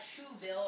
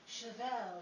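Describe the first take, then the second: First: The word is given a plain anglicized pronunciation. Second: The word is given a posh French-style pronunciation. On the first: The speaker lacks culture. The speaker calls it wrong. "you can't go about saying things like shoebill" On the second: The speaker has poise and refinement. The speaker calls it right. "You pronounce it chevel"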